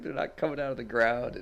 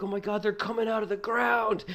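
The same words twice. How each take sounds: First: Imitating a friend's laughing contradiction; somewhat raised, incredulous correction; lightly acted scoffing at the panic; amused debunking. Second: Very high, loud alarm; hammed-up high-pitched battle panic; retold frantic yell. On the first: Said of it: "He just dies laughing". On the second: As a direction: shout a panicked warning to your brother. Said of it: "I yelled at my brother".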